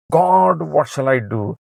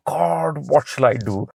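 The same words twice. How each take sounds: First: A desperate plea flung upward; crying out. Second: Said in the usual way. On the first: Acted. Moses cries out to God again.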